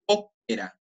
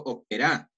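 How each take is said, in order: First: "ópera" with the opening Ó punched high; stress on first syllable. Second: "ópera" wrongly stressed on the final RA; stress on last syllable. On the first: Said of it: "Yo digo ópera". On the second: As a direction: punch the end of "ópera", as operÁ. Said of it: "yo no digo ópera". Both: Shown as a demonstration.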